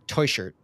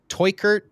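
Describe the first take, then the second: First: The middle consonant is a soft hissing sound. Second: The middle consonant is a hard K. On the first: "or it was like Teuscher" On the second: "with a hard K"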